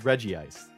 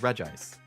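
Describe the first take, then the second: First: It begins with Regi, as in Regirock. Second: It does not begin with Regi. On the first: This is how the speaker says it. The speaker calls it right. "I always pronounce it as Regice" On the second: Some other people say it this way. The speaker calls it wrong. "I definitely know people who pronounce it as Regice"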